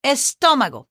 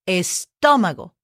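First: Estómago with TÓ punched higher, then falling away; stronger accented syllable. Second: Estómago with the stress on the second syllable, TÓ; accent on TÓ. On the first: Teacher demonstrating the written accent, stronger stress on TÓ in Estómago. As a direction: hit the TÓ of Estómago hard. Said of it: "make it a little stronger right there". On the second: Teacher showing where the accent falls, stress on TÓ in Estómago. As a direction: lean on the TÓ of Estómago. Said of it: "You hear what I accent?". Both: Shown as a demonstration.

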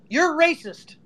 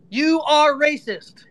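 First: Said in the usual way. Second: "You are racist" drawn out, word by word; slow emphatic accusation. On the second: Real, not acted. Repeats accusation spelled out slowly.

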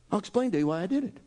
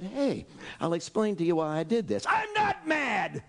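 First: Rattled off fast; hurried retake. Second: Mock angry Jesus. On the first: Acted. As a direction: rush it out as a quick aside. Restating Jesus' line, rushed. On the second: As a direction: play Jesus insisting he isn't angry while clearly shouting. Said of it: "stood up and said".

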